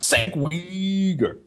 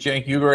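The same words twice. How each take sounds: First: The name is pronounced with exaggerated foreign-sounding distortion. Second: The name is pronounced in a plain, natural way. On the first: It mocks the person as an outsider. The speaker calls it wrong. "Let's make him sound like a foreigner" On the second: This is the name's real pronunciation. The speaker calls it right. "it's actually Cenk Uygur"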